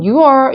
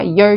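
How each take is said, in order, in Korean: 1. 두 개의 별개 소리로 발음됩니다. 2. 한 개의 짧은 소리로 발음됩니다. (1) "이게 아니라" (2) "두 사운드 아니라 your 하셔야 돼요"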